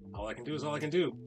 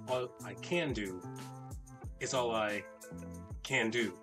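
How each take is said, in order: First: It is said with a careless, shrugging tone. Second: It is said with a firm, earnest tone. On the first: The speaker didn't try very hard. "That's the shoulder shrug variation" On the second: The speaker has tried everything possible. "which means I've tried all I can do"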